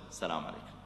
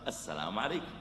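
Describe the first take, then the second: First: Very soft, low, gentle greeting. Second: Quiet, low gentle greeting; soft greeting. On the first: Preacher greeting the angry man, very soft and gentle. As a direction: greet him softly to calm him. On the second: Preacher repeating a calm greeting, quiet and gentle. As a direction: greet him softly with a small rise. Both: Shown as a demonstration. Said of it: "يا أخي، قل".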